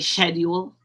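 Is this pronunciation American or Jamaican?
Jamaican. It is said with a Jamaican pronunciation. "in Jamaica they say"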